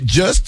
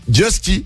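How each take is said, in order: First: The name ends on the consonants st. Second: The name ends with an ee vowel. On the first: "je prononçais Just" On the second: "Alors je dis Justy, ça faisait stylé"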